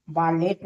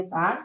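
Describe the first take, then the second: First: "बॉलेट" with a final t; T sounded. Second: "बॉल" with no final t; silent-t reading of "बॉल". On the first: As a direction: say "बॉलेट" in two syllables ending in t. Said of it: "बॉलेट नहीं पढ़ेंगे". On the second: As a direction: say "बॉल" as one syllable, et dropped. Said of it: "टी जो है silent है". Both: Shown as a demonstration.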